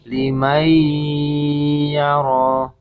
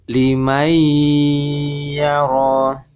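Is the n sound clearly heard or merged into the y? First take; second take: merged; merged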